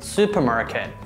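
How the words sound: It is said with American pronunciation. "American pronunciation"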